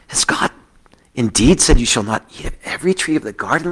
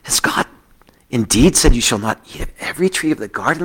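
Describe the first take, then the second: First: It is said in a sultry voice. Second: The same.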